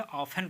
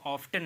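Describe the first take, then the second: First: ऑफन with F running straight into the vowel; silent T. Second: ऑफ्टन with a T after the F; sounded T. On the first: Teacher giving the reading, ऑफन with silent T. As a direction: say ऑफन without any T. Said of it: "ऑफन पढ़ते हैं". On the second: Teacher showing what not to say, ऑफ्टन with T. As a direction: say ऑफ्टन, pronouncing the T. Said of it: "इसको ऑफ्टन नहीं कहते हैं". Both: Shown as a demonstration.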